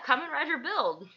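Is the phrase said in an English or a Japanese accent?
English. It is said in a plain English accent. The listener does not understand it. The speaker calls it wrong.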